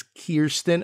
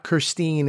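First: Kirsten slowly, long first syllable, KEER-stin. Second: Kirstine with a long EE in the last syllable; Kirstine as kur-STEEN. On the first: Mimicking someone correcting their name, the right Kirsten as KEER-stin. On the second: Mimicking someone correcting their name, the wrong Kirstine as kur-STEEN. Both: Retold or imitated. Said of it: "those who correct".

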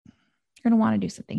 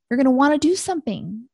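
First: Said in the usual way. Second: "do" lifted with a rising tune; emphatic stress on do. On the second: Shown as a demonstration. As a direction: push the word "do" up, slightly louder.

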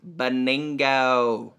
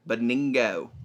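First: Drawn-out name. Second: Said in the usual way. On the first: Pretend. Host playing with a friend's name, drawn out. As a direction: savor BENINGO, stretching it very slowly.

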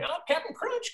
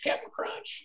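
First: Very high, sing-song cartoon mascot call; cartoon jingle voice. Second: Breathy whispered echo of the jingle. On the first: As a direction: belt it like a cereal jingle. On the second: Retold or imitated. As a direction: drop to a whisper on the repeat. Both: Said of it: "his crazy voices".

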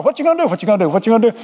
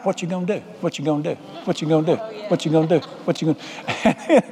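First: Whole tire choir. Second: Soft, low, repeating tyre chant; sung, loop it evenly like a wheel going round; singing truck tire. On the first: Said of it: "they had a whole choir". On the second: Front left tire nags the worried driver, soft rhythmic chant. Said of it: "The front left tire started singing to me". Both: Acted.

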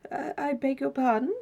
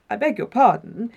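First: Higher, hesitant query with a rising end; politely puzzled, tentative question; doubtful. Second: Firmer, louder begging of pardon; startled apology, stronger on "beg"; taken aback. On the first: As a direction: ask it doubtfully, lifting the pitch. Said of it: "he said doubtfully". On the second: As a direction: return the apology with some force. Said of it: "It was now Desmond's turn to say it". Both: A narrator's reading.

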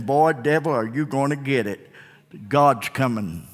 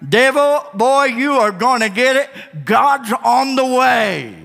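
First: Low, soft warning to the devil; quiet taunt. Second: Higher, slow defiant warning; bold taunt. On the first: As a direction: say it softly, almost under your breath. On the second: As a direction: call it out boldly at the devil. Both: Shown as a demonstration.

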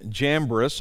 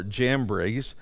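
First: Jambres said with a short, unstressed last syllable; first pronunciation. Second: Jambres said with a long "eez" ending; alternative pronunciation. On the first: Teacher giving the congregation the name from the passage, Jambres ending short. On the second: Teacher offering the other way he has heard, Jambres ending in "breez". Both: Shown as a demonstration. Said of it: "I've heard it pronounced both ways".

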